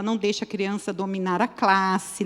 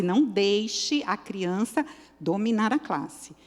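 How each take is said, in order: First: Said in the usual way. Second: "não" weighted and drawn out, slower phrase; slow down and lean on "não"; firm warning, "não" emphasized; stress on não. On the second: Shown as a demonstration. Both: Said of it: "repeated with emphasis".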